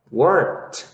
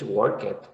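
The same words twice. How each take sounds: First: "Worked" as one syllable ending in a t sound; correct past. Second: "Work it" with a separate "it" syllable; wrong ending. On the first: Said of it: "So you would say in English". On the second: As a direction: say "Work it" as two words, the wrong way. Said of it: "So you never say in English". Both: Shown as a demonstration.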